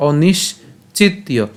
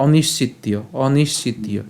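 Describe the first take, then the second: First: "অনিশ্চিতীয়" slowly in parts, onish, chittiyo; higher and slow, break "অনিশ্চিতীয়" after the sh; split pronunciation. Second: "অনিশ্চিতীয়" run together as onishchittiyo; joined pronunciation. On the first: Teacher showing the parts, "অনিশ্চিতীয়" broken after onish. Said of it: "তাহলে উচ্চারণটা কেমন হচ্ছে?". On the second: Teacher showing it said together, "অনিশ্চিতীয়" without a break. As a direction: say "অনিশ্চিতীয়" as one unbroken word. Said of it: "অবশ্যই একসাথে উচ্চারণ করবো". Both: Shown as a demonstration.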